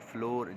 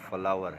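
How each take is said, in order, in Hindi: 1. यह शब्द door से तुक मिलाता है। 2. यह शब्द power से तुक मिलाता है। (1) "इससे कुछ लोग फ्लोर" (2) "ये फ्लोर नहीं है, लव फ्लावर है"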